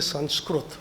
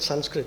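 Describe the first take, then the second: First: The word has an Indian-style pronunciation. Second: The word has an English-style pronunciation. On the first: "I would normally say Sanskrit" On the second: "Now I said Sanskrit, okay?"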